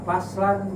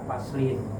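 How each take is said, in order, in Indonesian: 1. Kata ini berakhir dengan bunyi -an. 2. Kata ini berakhir dengan bunyi -in. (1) "bisa dibaca faslan" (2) "bisa dibaca faslin"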